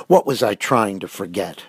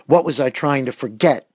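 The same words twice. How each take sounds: First: Insistent question, held short of a shout; demanding. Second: Restrained shout, pitched higher. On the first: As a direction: demand an answer with contained force. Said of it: "he demanded". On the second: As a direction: raise the voice into an exasperated demand. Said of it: "he shouted". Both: A narrator's reading.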